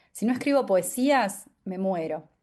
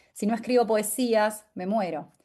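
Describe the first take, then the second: The two takes are said the same way.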